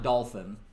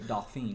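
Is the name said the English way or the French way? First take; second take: English; French. First: It sounds like the English word dolphin. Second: It is said with a French-style vowel, 'doh-feen'. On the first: The speaker calls it wrong. "not dolphin" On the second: The speaker calls it right. "like a French dauphine"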